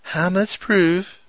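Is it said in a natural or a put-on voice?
put-on. It is said in a put-on voice.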